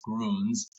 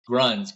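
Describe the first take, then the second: First: The vowel is a rounded German 'ü' sound. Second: The vowel is a plain English 'u' sound. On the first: This is the brand's actual name, meaning greens. The speaker calls it right. "now we know for a fact it is Gruns" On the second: This is how people locally say the name. The speaker calls it wrong. "everyone I've heard pronounce it over here is always like Gruns"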